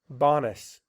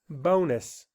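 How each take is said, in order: First: The first vowel is short, as in 'on'. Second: The first vowel is long, saying its name. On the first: The speaker calls it wrong. "It would make this short sound" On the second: The speaker calls it right. "so it says its name"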